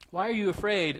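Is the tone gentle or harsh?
gentle. It is said gently and with care.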